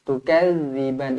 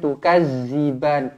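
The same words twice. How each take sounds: First: The z sound is soft, without buzzing. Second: The z sound is hard and buzzing. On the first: The speaker calls it right. "lembut je" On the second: The speaker calls it wrong. "Jangan tukadziban, tukaz"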